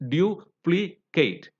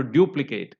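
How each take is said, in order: First: "duplicate" slowly in three parts, du, pli, cate; segmented syllables. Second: "duplicate" stressed on DU-; stress on first syllable. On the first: Teacher segmenting the word for learners, slow syllable by syllable. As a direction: break "duplicate" into separate syllables with pauses. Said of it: "segment it". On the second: Teacher counting syllables for learners, stress on the first. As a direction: hit DU in "duplicate" and fall away. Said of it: "third syllable from the end". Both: Shown as a demonstration.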